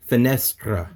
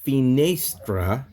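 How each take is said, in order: First: "finestra" with middle e as short EH; short, accented NESS in "finestra"; corrected pronunciation. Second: "finestra" with middle e as long AY; drawn-out AY in the middle of "finestra"; mistaken pronunciation. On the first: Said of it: "it's gonna be finestra". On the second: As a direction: say "finestra" as fi-NAY-stra. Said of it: "So instead of finestra". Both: Shown as a demonstration.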